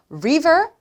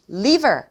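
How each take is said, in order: First: "river" said clearly with an English R at the start; careful contrast word "river", rounded R; higher, slow "river" starting on R. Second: "liver" said clearly with an L at the start; careful contrast word "liver", tongue-tip L; crisp "liver" starting on L, not R. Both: Shown as a demonstration. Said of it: "분명히 발음 차이가 있다는 거".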